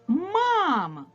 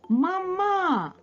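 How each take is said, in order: First: The stress is on the first syllable. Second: The stress is on the second syllable. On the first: The speaker calls it right. "А тепер поставимо наголос на перший звук А" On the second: The speaker calls it wrong. "Ось у нас наголос зараз стоїть на другому звуковичку А"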